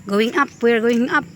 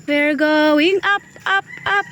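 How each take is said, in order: First: Said in the usual way. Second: Slow "going", then "up, up" climbing high; playful, rising chant on "up, up, up"; drawn-out playful UP. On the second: Real, not acted. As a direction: stretch it out, each "up" pitched higher. Playful repeat while climbing uphill.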